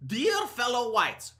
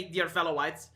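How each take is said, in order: First: Mock formal address. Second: Lower, softer prim recital; mock formal address. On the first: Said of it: "who talks like this?". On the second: Mocking the phrase for viewers, soft prissy parody.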